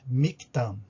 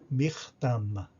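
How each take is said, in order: First: The middle consonant is a plain k sound. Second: The middle consonant is a guttural r-like sound. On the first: The speaker calls it wrong. "a gente não vai ler Mictam, né? É um erro isso" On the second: The speaker calls it right. "O K H ele tem som de R"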